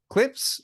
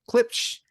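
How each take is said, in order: First: The word ends with a plain 's' sound. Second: The word ends with an 'sh' sound. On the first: "I think that's how you call it" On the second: "Gotta have that sh in there"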